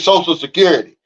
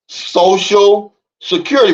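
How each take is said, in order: First: The phrase is said quickly, run together. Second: The phrase is said slowly, word by word. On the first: The meaning of the words goes unnoticed. "but we say" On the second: The hidden meaning of the words becomes clear. "if you say social security slow"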